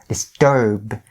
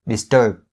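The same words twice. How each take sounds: First: The final B sound is fully released. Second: The final B sound is held, not released. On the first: "notice the way that I really enunciated the B sound" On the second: "The B sound right there is stopped"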